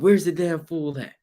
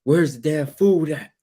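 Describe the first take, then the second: First: Raised, higher demanding shout; mock yell. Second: Slow, half-hearted demanding shout; mild mock yell. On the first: Husband yelling at wife for food, mock yell. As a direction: bark the question across the house. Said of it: "You yell out". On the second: Husband demanding food from wife, mild mock yell. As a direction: lightly call out for food. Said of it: "she's like".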